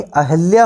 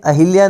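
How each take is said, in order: First: अहिल्या with "ha" in the middle; corrected अहिल्या. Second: अहिल्या with "hi" in the middle; mispronounced अहिल्या. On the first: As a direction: say अहिल्या as a-HAL-ya. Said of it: "अहिल्या होता है". (अहिल्या को 'अहल्या' बोलें) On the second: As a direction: say अहिल्या as a-HIL-ya. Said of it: "अहिल्या नहीं". (अहिल्या में 'हि' बोलें) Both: Shown as a demonstration.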